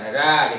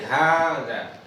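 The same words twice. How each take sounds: First: The first vowel is short. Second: The first vowel is long. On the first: The speaker calls it wrong. "Bukan ada gitu ya" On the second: The speaker calls it right. "tetapi dibaca panjang"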